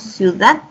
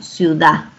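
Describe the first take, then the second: First: The final d sound is pronounced. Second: The final d sound is dropped. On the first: "no decimos ciudad" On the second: "omitimos la D"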